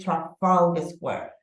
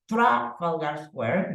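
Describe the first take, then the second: First: The stress is on the second syllable. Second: The stress is not on the second syllable. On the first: The speaker calls it right. "I say Trafalgar Square" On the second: The speaker calls it wrong. "I don't say Trafalgar Square, no"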